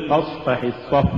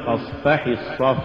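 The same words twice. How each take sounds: First: Said in the usual way. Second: فاصفح الصف with too much stress on فَ before ح; فاصفح, accent shifted late onto فَ; overstressed fa. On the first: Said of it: "قل". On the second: Shown as a demonstration. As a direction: punch the second فَ in فاصفح. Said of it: "ولا تقل".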